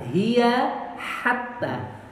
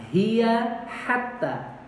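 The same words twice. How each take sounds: Both takes have the same delivery.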